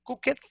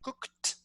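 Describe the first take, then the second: First: The ending is an extra separate syllable. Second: The ending joins the word with no extra syllable. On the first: The speaker calls it wrong. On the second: The speaker calls it right.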